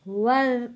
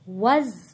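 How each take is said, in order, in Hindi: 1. यह व्यंजन जीभ को दांतों के बीच रखकर बोली जाने वाली नरम 'th' ध्वनि है। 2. यह व्यंजन भनभनाती हुई 'z' ध्वनि है। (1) "यहाँ पे नरमी के साथ" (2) "वज नहीं पढ़ना, फिर जा बन जाता है वो"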